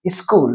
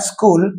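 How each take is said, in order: First: "school" with an i vowel before the s; extra vowel in front of "school"; Hindi-speaker e prefix. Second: Said in the usual way. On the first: Shown as a demonstration. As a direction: say "school" as iskool. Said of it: "e, in front of it". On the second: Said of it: "sa is pronounced by using another vowel sound".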